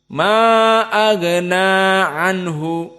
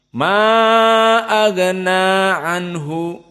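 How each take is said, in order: The two takes are said the same way.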